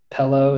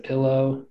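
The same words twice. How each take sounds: First: "Pello" with an E in the first syllable; "Pello", first vowel as in pet; Southern vowel swap. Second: Said in the usual way. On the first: Shown as a demonstration. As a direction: say pillow as "Pello", E for I. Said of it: "they just mix the I's and the E's up". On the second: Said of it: "instead of".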